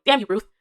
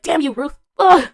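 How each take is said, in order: First: Louder playful curse; mock cursing. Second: High, loud jealous outburst; exasperated mock curse. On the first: Jealous fan cursing the actor's wife, mock annoyed. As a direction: lightly curse a rival, jokingly. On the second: Jealous fan cursing the actor's wife, mock fury. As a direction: curse the rival, ending in a loud groan.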